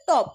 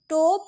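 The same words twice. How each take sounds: First: টপ with a short open "aw", not "oh"; short O sound. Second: টোপ with a held "oh" like the letter's name; long O, wrong take. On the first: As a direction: say টপ briefly, vowel undragged. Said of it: "আমরা কি বলছি?". (টপ, হ্রস্ব অ দিয়ে) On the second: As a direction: stretch the ও in টোপ. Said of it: "আমরা টোপ বলছি না". (টোপ, ও টেনে ভুল উচ্চারণ) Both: Shown as a demonstration.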